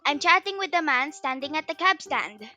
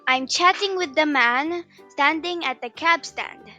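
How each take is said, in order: First: The sentence is spoken at a fast speed. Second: The sentence is spoken at a moderate speed.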